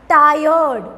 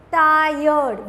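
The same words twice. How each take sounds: First: Said in the usual way. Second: "tired" drawn out as two beats, tai, yerd; split into syllables. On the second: Shown as a demonstration. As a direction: stretch "tired" to show both syllables. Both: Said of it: "We again have two syllable".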